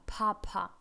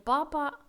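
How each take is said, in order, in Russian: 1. Произносится по-американски, с придыханием на p. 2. Произносится просто, без лишнего выдоха. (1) "говорим на американский манер наши слова" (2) "не папа просто"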